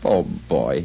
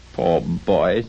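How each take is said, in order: First: Low, sorrowful pity; a low sigh of sympathy. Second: A touch of tenderness; uncharacteristically tender. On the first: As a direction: feel sorry for your younger self. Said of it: "again in pity for his former self". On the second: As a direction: let unaccustomed sympathy slip out. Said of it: "in a manner very foreign to his usual character". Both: A narrator's reading.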